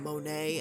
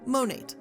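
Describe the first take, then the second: First: The name is said in a fancy French-sounding way. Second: The name is said plainly, not French-sounding. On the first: The speaker calls it wrong. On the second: The speaker calls it right.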